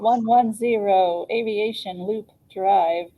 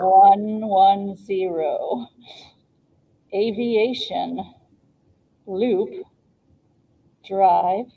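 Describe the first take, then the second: First: It is read at a normal, quicker pace. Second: It is read slowly and clearly.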